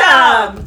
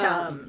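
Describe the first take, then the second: First: It is said loudly, with pride. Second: It is said quietly, almost mouthed.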